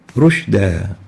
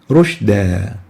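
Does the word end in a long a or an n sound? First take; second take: long a; long a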